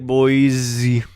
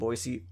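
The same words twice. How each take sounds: First: The middle consonant is a z sound. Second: The middle consonant is an s sound. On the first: The speaker calls it wrong. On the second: The speaker calls it right.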